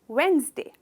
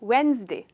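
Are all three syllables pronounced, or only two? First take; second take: two; two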